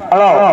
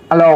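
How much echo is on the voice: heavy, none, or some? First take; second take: heavy; none. First: The voice has a strong echo effect. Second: The voice sounds dry with no echo. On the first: "Để hết lóc lên" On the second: "mình dặn tuốt xuống là cái tiếng nói của mình nghe bình thường"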